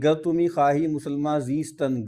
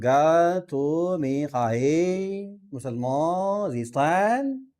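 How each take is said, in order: First: Said in the usual way. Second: Drawn-out Iranian Persian vowels, very slow; laboured Iranian Persian accent. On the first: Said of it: "تھوڑی تکلیف سے بولیں گے". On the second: Shown as a demonstration. Teacher showing students how Iranians say Persian verse, laboured Iranian accent. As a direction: stretch each word in an effortful Iranian Persian accent. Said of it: "منہ ٹیڑھا کرنا پڑے گا تھوڑا سا".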